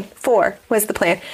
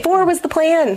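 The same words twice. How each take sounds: First: Said in the usual way. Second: Said high as an indignant exclamation, Four was the plan; high protesting take of Four was the plan; high exclaim. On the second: Shown as a demonstration.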